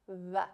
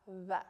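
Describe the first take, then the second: No difference in how they are said.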